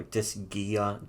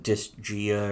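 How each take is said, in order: First: "Disgaea" with a hard g, dis-GHEE-uh; hard-g guess. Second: "Disgaea" with a soft g, dis-JEE-uh; soft-g guess. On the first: Second try at the game's name, "Disgaea" said dis-GHEE-uh. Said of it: "whatever the fuck, I don't know". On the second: Unsure of the game's name, "Disgaea" said dis-JEE-uh. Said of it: "was it Disgaea or fu". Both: Shown as a demonstration.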